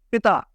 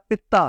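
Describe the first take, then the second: First: پتا as pi-ta, the father word; short i, single t in پتا. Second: پتا as pit-ta, the gallbladder word; doubled t with i. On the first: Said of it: "باپ کے معنی میں ہے". (پتا میں پے کے نیچے زیر، بغیر شد) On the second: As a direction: stop on the t in پتا after short i. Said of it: "خوراک کو ہضم کرنے میں". (پتا میں زیر اور تے پر شد) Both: Shown as a demonstration.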